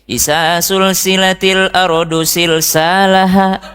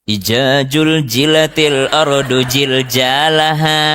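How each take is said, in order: First: The z sounds are said as s. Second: The z sounds are said as j.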